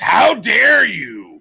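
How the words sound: It is said in an exaggerated cartoon-character voice. The speaker calls it right. "It's how dare you. Like Mr. Big Head from Rocko's Modern Life"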